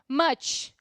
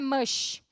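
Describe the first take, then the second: First: The word ends with a 'ch' sound. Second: The word ends with an 'sh' sound. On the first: The speaker calls it right. "o C H em inglês, tanto no final quanto no começo, é tchan" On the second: The speaker calls it wrong. "não é mush"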